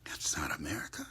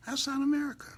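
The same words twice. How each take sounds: First: Whispered softly, almost to herself; hushed. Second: Pitched way up in outrage; high indignant cry. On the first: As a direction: breathe it out quietly. Hushed then repeated loud. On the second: Repeated much higher. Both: Real, not acted.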